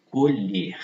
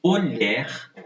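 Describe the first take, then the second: First: "colher" said as co-LHÊR with a closed ê, falling at the end; "colher" with the closed vowel, like the noun. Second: "Colher" said as co-LHÉR with an open é, rising at the end; "Colher" with the open vowel, like the verb. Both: Shown as a demonstration. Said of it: "pronúncias também diversas".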